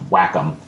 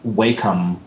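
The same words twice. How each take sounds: First: The first syllable sounds like 'wack'. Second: The first syllable does not sound like 'wack'. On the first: This is the official pronunciation. The speaker calls it right. "I guess it's actually pronounced Wacom" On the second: This is the commonly assumed pronunciation. The speaker calls it wrong. "the assumption that it would be uh"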